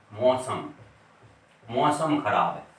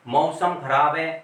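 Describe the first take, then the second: First: मौसम said with a plain o, mosam; o sound mausam. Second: Slow मौसम with an open a-u glide; correct au, slow. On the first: Teacher showing students the everyday o pronunciation. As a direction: flatten मौसम to mo-sam. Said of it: "ओ का उच्चारण करके बोलते हैं". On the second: Teacher showing the pure pronunciation to students. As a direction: say मौसम deliberately as ma-u-sam. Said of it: "अगर हम शुद्ध बोलेंगे". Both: Shown as a demonstration.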